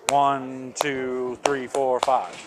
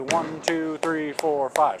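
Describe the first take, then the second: First: The last three counts come faster than the first. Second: All five counts come at the same steady pace.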